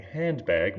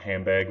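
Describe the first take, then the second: First: "handbag" with the d clearly sounded; careful full pronunciation. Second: "handbag" run together as "hambag"; "handbag" with the nd blended into m; assimilated pronunciation. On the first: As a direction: say "handbag" carefully, both syllables complete. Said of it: "instead of saying handbag". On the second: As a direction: say "handbag" casually, dropping the d. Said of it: "when we're talking quickly". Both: Shown as a demonstration.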